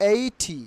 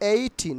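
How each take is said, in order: The two takes are said the same way.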